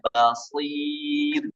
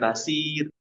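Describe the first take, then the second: First: The first consonant is said thick and heavy. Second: The first consonant is said thin and light. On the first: The speaker calls it right. "Jangan lupa tebalnya" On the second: The speaker calls it wrong.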